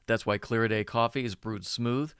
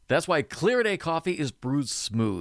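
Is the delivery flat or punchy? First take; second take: flat; punchy. First: It is read flat with even, unchanging rhythm. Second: It is read with key words punched and varied. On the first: The speaker calls it wrong. "read in a flat voice like a novice voiceover talent would do" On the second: The speaker calls it right. "see how I punch these words"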